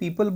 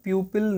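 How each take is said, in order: First: The word begins with a plain 'pee' sound. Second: The word begins with a 'pyoo' sound. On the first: The speaker calls it right. "इसको पीपल बोलते हैं" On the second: The speaker calls it wrong. "प्यूपिल नहीं बोलते"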